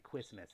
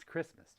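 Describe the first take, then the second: First: Christmas said "Kwismas", W for R; low, soft "Christmas" with the R as W; mocking own slip. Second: Said in the usual way. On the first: Shown as a demonstration. Streamer repeating their own slip, mispronounced Christmas. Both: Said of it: "Why am I talking like that?".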